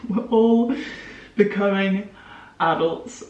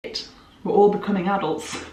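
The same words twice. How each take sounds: First: Laughing. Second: Said in the usual way. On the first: Shown as a demonstration. To her viewers, half-panicked about adulthood: laughing repeat. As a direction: laugh at the dawning truth.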